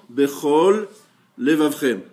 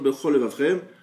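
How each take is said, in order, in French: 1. Chaque mot se dit séparément, avec le son l. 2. Les mots s'enchaînent rapidement et le l disparaît.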